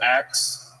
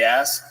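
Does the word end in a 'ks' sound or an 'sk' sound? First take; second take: ks; sk. First: The word ends with a ks sound. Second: The word ends with an sk sound. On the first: The speaker calls it wrong. "instead of axe" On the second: The speaker calls it right. "I pronounce my words correctly"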